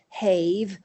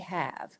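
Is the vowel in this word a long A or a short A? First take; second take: long A; short A. First: The vowel is a long A sound. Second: The vowel is a short A sound. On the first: It is how the spelling suggests it should sound. The speaker calls it wrong. "the E on the end generally marks the vowel as a long vowel, A, but we don't say have" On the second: It is how the word is actually said. The speaker calls it right. "we say have"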